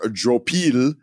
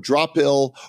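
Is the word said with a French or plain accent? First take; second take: French; plain. First: It is said with a French accent. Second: It is said in a plain, unaccented way.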